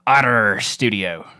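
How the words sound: The word is said in a growling pirate voice. The speaker calls it right. "It's actually in inspiration by Jack Sparrow"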